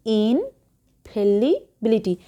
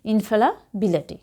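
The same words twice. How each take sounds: First: ইনফ্যালিবিলিটি drawn out slowly with a clear লি as spelt; spelling pronunciation. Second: ইনফ্যালাবিলিটি at normal speed with a light লা; real pronunciation. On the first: Teacher showing the spelling to learners, slow ইনফ্যালিবিলিটি. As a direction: stretch out ইনফ্যালিবিলিটি syllable by syllable, লি not লা. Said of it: "বানানটা হচ্ছে". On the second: Teacher contrasting spelling with how students should say it, natural ইনফ্যালাবিলিটি. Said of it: "pronunciation সেটা কিন্তু আলাদা". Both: Shown as a demonstration.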